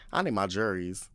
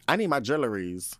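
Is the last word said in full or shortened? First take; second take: shortened; full. First: The last word is squeezed into two syllables. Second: The last word is said in full.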